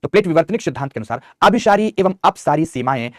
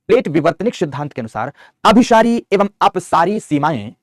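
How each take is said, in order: First: Said in the usual way. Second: Slow, loud dictation so students can write it down; every word spaced for note-taking. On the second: Shown as a demonstration. Teacher dictating to the class, slow and clear. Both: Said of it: "पीछे लिखा चुका हूं".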